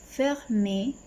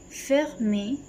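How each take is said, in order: Both takes have the same delivery.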